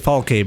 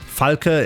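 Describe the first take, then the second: First: The name is said with English pronunciation. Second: The name is said with German pronunciation. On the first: "closer to the German pronunciation, but at the same time, it's still an English pronunciation" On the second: "the proper German pronunciation"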